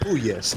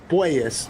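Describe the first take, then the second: First: The first syllable sounds like 'poo'. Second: The first syllable sounds like 'poi'. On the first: The speaker calls it wrong. "not Puyes" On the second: The speaker calls it right. "more of a poi"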